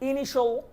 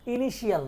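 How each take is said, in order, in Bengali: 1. শেষ অংশটি এক সিলেবলে বলা হয়, 'shal'। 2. শেষ অংশটি দুই সিলেবলে বলা হয়, 'shiyal'।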